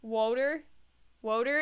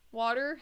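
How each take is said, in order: First: "Woter" with a long "oh" vowel; altered "Woter". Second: "Water" with an open "aw" vowel; usual "Water". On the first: Player testing how to say it, "Woter" with long "oh". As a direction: say "Woter" as "woh-ter", questioning. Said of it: "Is that how you say it". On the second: Player testing how to say it, "Water" with open "aw". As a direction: say "Water" as "waw-ter", questioning. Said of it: "everybody wants me to say water". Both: Shown as a demonstration.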